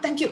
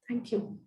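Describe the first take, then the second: First: It is said quickly and dismissively, in passing. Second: It is said slowly and warmly, with feeling. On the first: The mind is already moving on to the next thing. The speaker calls it wrong. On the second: The gratitude is sincerely felt. The speaker calls it right.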